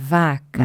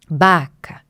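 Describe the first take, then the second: First: The word starts with a V sound. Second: The word starts with a B sound. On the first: The intended adult pronunciation. The speaker calls it right. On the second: A child's substitution of a stop for a fricative. The speaker calls it wrong.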